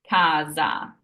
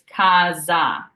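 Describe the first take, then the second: First: The middle consonant is a buzzing Z sound. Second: The middle consonant is a buzzing Z sound.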